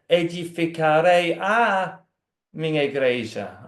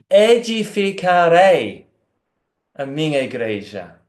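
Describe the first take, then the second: First: The last word carries the emphasis. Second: The first word carries the emphasis. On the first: There is only one church. "Pode colocar ênfase na" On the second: It is he who will do the building. "pode colocar ênfase na primeira parte"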